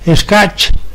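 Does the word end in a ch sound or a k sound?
ch. The word ends with a ch sound. A Castilian speaker would say it this way. "Un castellano las pronunciaría tal como ocurre hoy con las palabras que acaban en ch"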